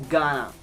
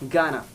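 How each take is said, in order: The two takes are said the same way.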